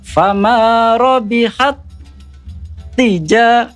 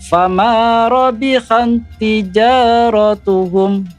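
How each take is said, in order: First: There is a pause before the last word. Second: It runs on without a pause before the last word. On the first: The speaker calls it wrong. "Ada jedahnya, artinya ditekan dan didengungkan. Itu contoh bacaan yang salah" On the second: The speaker calls it right. "tidak didengungkan. Cukup di ditekan saja"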